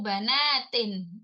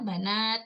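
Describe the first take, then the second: First: The word ends with the full '-in' ending. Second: The word stops on 't' without any ending.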